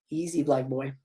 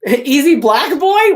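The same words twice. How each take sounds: First: Said in the usual way. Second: Higher, louder and slow, in disbelief; incredulous repeat. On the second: Real, not acted. Reader repeating the script line in stunned disbelief. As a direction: savor the absurd line with amusement.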